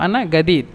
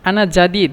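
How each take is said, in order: First: The second word begins with a 'g' sound. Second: The second word begins with a 'j' sound. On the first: This is how Egyptians say it. "মিশররা জিমকে গয়ন বলে" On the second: This is the standard form. "মূলত"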